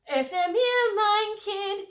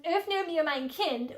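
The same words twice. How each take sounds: First: Sung high and loud, a short demo of the phrase; singing the serenade line. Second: Said in the usual way. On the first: Shown as a demonstration. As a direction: sing it out to show the melody. Sings the lover's line from the song.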